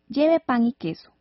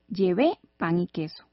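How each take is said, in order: First: Lleve is stressed on its first syllable. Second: Lleve is stressed on its last syllable. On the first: Someone is being told to bring bread and cheese. "Ese lleve va sin tilde" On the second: The speaker already brought bread and cheese. "Es diferente a decir"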